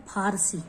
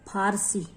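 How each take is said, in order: Both takes have the same delivery.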